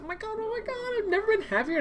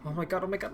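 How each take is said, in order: First: "oh my god" squealed much higher; excited squeal. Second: Said in the usual way. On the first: Acted. Realizing someone can find her, a high excited squeal. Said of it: "same words squealed high". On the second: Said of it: "repeated with a squeal after".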